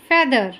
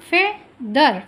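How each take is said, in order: First: Said in the usual way. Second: फेदर split as फे, pause, दर; two separate beats in फेदर, फे... दर; syllable by syllable. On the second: Shown as a demonstration. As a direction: break फेदर in two for clapping along. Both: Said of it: "जितने syllable होंगे".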